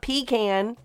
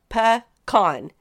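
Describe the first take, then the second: First: The word sounds like 'pee can'. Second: The word does not start like 'pee can'. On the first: The speaker calls it wrong. "It's not pecan. That's something you put on the side of the bed" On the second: The speaker calls it right. "it is pronounced"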